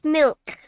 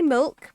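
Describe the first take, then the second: First: The vowel sounds like an i. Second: The vowel sounds like a u. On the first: This is how other people want it said. "rather than an I" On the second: This is how the speaker naturally says it. "apparently I say it with a U"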